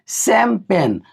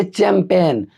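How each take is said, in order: First: शैंपेन slowly, as "sem-pen"; slow two beats, शैंपेन starting on "s"; correct pronunciation. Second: चैंपियन with "ch", as "chem-pen"; mistaken reading. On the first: Teacher correcting students' reading, slow model pronunciation. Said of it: "ये शैंपेन है guys". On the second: Teacher voicing how students would read it, mistaken pronunciation. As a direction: start चैंपियन on a "ch", two beats. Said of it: "पढ़िए तो इसको आप पढ़ेंगे". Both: Shown as a demonstration.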